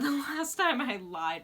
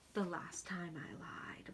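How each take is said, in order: First: It is spoken louder and clearer. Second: It is spoken quietly and low. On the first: The speaker calls it right. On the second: The speaker calls it wrong.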